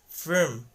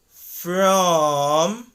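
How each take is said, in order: First: The vowel is reduced to a short uh. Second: The vowel is a long, full aw sound. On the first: "the word from changes into firm" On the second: "if you just stretch the word a little bit from, by saying it as from"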